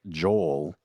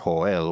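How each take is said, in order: First: The name is said with an English pronunciation. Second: The name is said with a Spanish pronunciation. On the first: This is the name used in everyday settings. "I go by Joel normally" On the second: This is the name used among Spanish-speaking family and friends. "which is the Spanish uh, pronunciation of my name"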